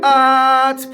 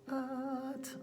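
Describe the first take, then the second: First: The word is said firmly and loudly. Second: The word is said very quietly. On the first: "Three is firm. Push it loud" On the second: "Little tiny, as quiet as you can"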